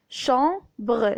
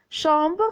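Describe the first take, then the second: First: "Chambre" split as cham-bre, final e sounded; syllable by syllable. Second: Said in the usual way. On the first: Shown as a demonstration. (« Chambre » découpé en cham-bre) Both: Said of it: "le son bre avec E".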